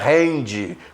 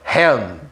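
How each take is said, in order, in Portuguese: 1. O D final é seguido de uma vogal I acrescentada. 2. A palavra termina de repente num D segurado. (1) "não fala hand" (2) "Olha o D lá travando"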